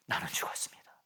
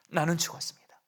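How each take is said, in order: First: 나는 죽었습니다 breathed in a whisper; hushed vow, 나는 죽었습니다 almost silent; whispered confession. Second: Said in the usual way. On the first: Shown as a demonstration. Repeated confession, first whispered.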